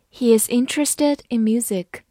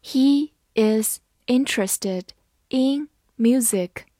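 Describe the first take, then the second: First: Said in the usual way. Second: Word by word with gaps between words; careful, evenly spaced teaching pace; slow reading. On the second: Shown as a demonstration. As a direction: read it out slowly for learners. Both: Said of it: "好，慢慢来读".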